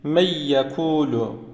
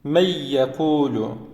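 First: The n merges into a doubled y sound. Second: The n merges into a doubled y sound.

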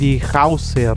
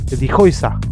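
First: The vowel sounds like 'ow' as in house. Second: The vowel sounds like 'oy' as in boy. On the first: The speaker calls it wrong. "no se dice die Hauser" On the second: The speaker calls it right. "se pronuncia como O-I"

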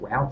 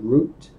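First: It is said in an American accent. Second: It is said in a British accent.

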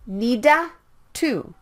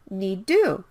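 First: An extra vowel separates the D and T. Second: The D and T merge into one sound. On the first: The speaker calls it wrong. "Don't say it like nida to" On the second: The speaker calls it right. "You can skip one of the D or T sounds"

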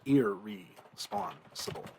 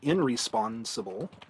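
First: The n merges into a doubled r. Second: An n sound is kept before the r. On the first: The speaker calls it right. "assimilation here to the next letter" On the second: The speaker calls it wrong. "we don't say it is"

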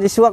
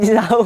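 First: The name ends with the vowels u then a. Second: The name ends with the vowels a then u. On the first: The speaker calls it wrong. "Bukan Cisuak" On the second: The speaker calls it right. "tapi Cisauk"

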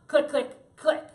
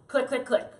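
First: Two quick clicks, a gap, then one. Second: The three clicks are evenly spaced. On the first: The speaker calls it wrong. "That's a double click with a single click behind it" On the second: The speaker calls it right. "A triple click is"

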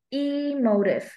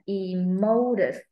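First: The stress is on the first syllable. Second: The stress is on the second syllable. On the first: "Âm một phải là da da da emotive" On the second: "Âm hai là da da da"

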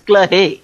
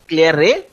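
First: It is said French-style with a French R. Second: It is said English-style with a sounded R. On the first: "If you pronounce it French, it is Claire" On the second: "If you pronounce it English, it is Claire. R sound is pronounced"

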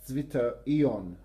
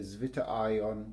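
First: The word is pronounced in a German way. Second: The word is pronounced in an English way. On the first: The speaker calls it right. "I'm going to do my best to pronounce it properly" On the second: The speaker calls it wrong. "I would normally say zwitterion, which is probably totally wrong"

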